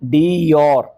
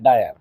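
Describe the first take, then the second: First: The name starts with a 'dee' sound. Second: The name starts with a 'dye' sound. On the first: The speaker calls it right. "उसको क्या बोलना चाहिए" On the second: The speaker calls it wrong. "Madam क्या बोल रही थी"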